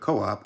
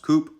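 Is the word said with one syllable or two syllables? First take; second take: two syllables; one syllable. First: It is said as two syllables. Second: It is said as one syllable. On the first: The speaker calls it right. "but co-op, as it is short for cooperative" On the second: The speaker calls it wrong. "coop is not pronounced coop"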